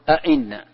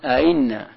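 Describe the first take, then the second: First: Both glottal stops are pronounced fully and clearly. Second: The second glottal stop is softened, half pronounced. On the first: "فتحقيقه أن تنطق بالهمزتين نطقا محققا" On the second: "ويجوز لك أن تسهل الثانية"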